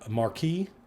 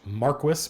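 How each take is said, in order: First: It is said the non-English, foreign way. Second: It is said the English way.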